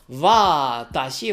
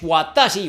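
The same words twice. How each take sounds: First: The first sound is a soft V. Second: The first sound is a rounded W. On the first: The speaker calls it right. "una V un poquito francesa" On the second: The speaker calls it wrong. "no me digáis watashi"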